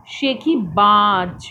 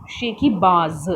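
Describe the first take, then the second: First: शेखीबाज slowly with ज as j; शेखीबाज drawn out, ending in j; without nukta, slow. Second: शेखीबाज ending in z; with nukta. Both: Shown as a demonstration. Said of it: "अंतर है आवाज़ में".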